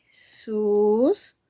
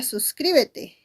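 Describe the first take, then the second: First: "Suscríbete" very slowly in four separate beats; syllable by syllable. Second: Said in the usual way. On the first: Shown as a demonstration. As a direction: break "Suscríbete" into sus, crí, be, te with long pauses. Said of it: "Cuatro sílabas". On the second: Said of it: "También tenemos la palabra".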